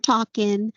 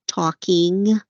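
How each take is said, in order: First: The final -ing ending is dropped or softened. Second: The final -ing ending is clearly pronounced. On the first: "We tend to drop off endings" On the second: "very specific and very clear in my enunciation"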